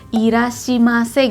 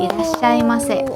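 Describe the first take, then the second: First: The middle syllable is said as 'shi'. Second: The middle syllable is said as 'shai'. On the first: The speaker calls it wrong. "kalau yang salah kan kayak irashimase gitu ya" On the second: The speaker calls it right. "sebetulnya yang betul itu bacanya irashaimase"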